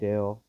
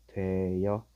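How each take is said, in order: First: The ending is a plain 'eo' vowel. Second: A 'y' glide is added, giving 'yeo'. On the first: This is the standard pronunciation. "되어로 발음해도 되고요" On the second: This is also accepted as a permitted pronunciation. "뭐까지 인정해준다?"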